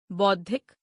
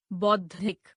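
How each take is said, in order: First: बौद्धिक with "o" for "au"; mispronounced. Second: Said in the usual way. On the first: Shown as a demonstration. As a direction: say बौद्धिक as "boddhik". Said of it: "अशुद्ध". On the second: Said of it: "शुद्ध".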